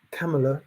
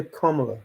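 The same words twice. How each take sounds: First: Kamala with a flat "a" as in cat: KAM-uh-luh; Kamala said KAM-uh-luh, cat vowel first; wrong pronunciation. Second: Kamala with a broad "a" as in father: KAH-muh-luh; Kamala said KAH-muh-luh, father vowel first; right pronunciation. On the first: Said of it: "You can't say". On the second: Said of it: "you gotta say". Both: Shown as a demonstration.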